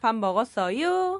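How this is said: The final syllable rises high, like a question.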